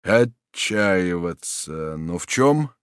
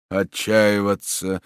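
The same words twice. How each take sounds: First: Very slow, then rising in confusion; slowly grasp the word, then ask; stunned disbelief; bewildered question. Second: Very slow, absent repetition; dazed, toneless echo; mechanical repeat. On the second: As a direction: echo the word without taking it in. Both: Acted. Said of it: "машинально повторил маршал".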